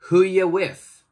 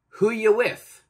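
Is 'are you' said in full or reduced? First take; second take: reduced; reduced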